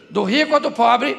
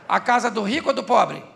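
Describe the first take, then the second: First: Ou stressed with a louder rising question. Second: Said in the usual way. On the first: Shown as a demonstration. Preacher repeating the question to the church, louder, stressing ou. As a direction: ask it back, leaning on ou, rising at the end.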